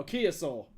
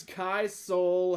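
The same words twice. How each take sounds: First: Kia Soul corrected, Kia in two syllables, "KEE-uh"; corrected pronunciation. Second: Kai Soul misread slowly, Kai rhyming with "eye"; misread pronunciation. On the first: Reader catching his misread comment, correcting it to Kia Soul as "KEE-uh Soul". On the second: Reading a listener's comment aloud, slowly misreading Kai Soul as "K-eye Soul". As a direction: say "Kai Soul" slowly, Kai as one syllable like "sky". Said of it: "Did he just say Kaya?". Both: Real, not acted.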